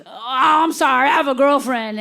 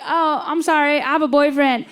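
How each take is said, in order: First: Lightly voiced apologetic hillbilly; hillbilly fairy. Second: Put-on slightly higher, politely apologetic child; six-year-old girl. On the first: Hillbilly turning down the six-year-old, apologetic country voice. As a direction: turn it down as a country character. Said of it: "And he goes". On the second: Six-year-old turning down the hillbilly, lightly childlike apology. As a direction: let him down gently as a little girl. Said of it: "And I was like".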